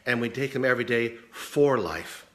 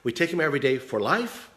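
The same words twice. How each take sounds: First: "for" stressed, "life" falling firmly; emphatic inflection on for life. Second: Rising tune on the word life; questioning inflection on life. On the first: Teacher showing two senses of a phrase, "for life" stressed and falling. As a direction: land hard on FOR, then drop on life. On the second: Teacher showing two senses of a phrase, "life" rising. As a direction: lift "life" up at the end like a question. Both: Shown as a demonstration. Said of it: "let's put the inflection on it".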